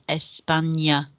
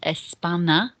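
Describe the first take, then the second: First: The middle consonant is an ny sound. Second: The middle consonant is a plain n sound. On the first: The speaker calls it right. "it's España" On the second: The speaker calls it wrong. "the pronunciation of that word isn't España"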